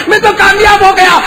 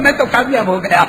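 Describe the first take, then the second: First: Much higher, louder shouted cry; high, loud victorious call; triumphant shout. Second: Said in the usual way. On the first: Acted. Repeated line, shouted take.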